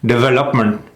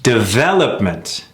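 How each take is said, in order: First: DEVELOPMENT said quickly with misplaced, evened-out stress; mis-stressed development. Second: DEVELOPMENT with a long, swooping second syllable VEL; correct stress on development. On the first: Coach showing learners the wrong rhythm, mis-stressed DEVELOPMENT. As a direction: say DEVELOPMENT short, without the long second syllable. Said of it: "Big difference". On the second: Coach modelling the right rhythm, stressed de-VEL-opment. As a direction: stretch and punch VEL in DEVELOPMENT. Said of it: "Putting the emphasis on". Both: Shown as a demonstration.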